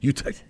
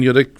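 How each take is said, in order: First: The second syllable sounds like 'tech'. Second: The second syllable sounds like 'dick'. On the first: The speaker calls it right. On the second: The speaker calls it wrong.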